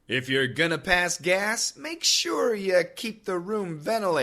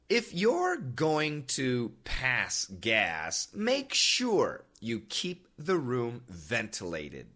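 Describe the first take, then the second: First: It is read at normal conversational speed. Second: It is read slowly and smoothly. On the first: "The second time, normal speed" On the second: "The first time, nice and smoothly"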